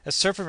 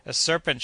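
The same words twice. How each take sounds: First: Higher again, rising in disbelief; Kennedy echoes it, rifle in hand; echoed alarm. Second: A higher, mildly raised alarmed cry; shouted alarm. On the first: Kennedy repeating the alarm, rising and questioning. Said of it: "repeated Kennedy". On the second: Joe shouting a warning, lightly acted alarm. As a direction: Joe spots the serpent and calls out. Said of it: "shouted Joe". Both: Acted.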